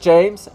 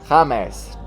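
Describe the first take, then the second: First: The name is said with English sounds. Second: The name is said with Spanish sounds. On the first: This is not how people in Colombia say the name. The speaker calls it wrong. "not James" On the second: This is how people in Colombia say the name. The speaker calls it right. "they call him James"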